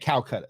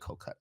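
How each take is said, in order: First: The name is said as Calcutta. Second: The name is said as Kolkata. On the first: The speaker calls it wrong. "I was saying Calcutta" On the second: The speaker calls it right. "no, we say Kolkata"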